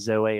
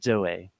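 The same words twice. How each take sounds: First: The Z sound is plain and soft. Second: The Z sound starts hard, like D. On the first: The speaker calls it wrong. "rather than Zoe" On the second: The speaker calls it right. "more of like a D to it... almost a bit harder"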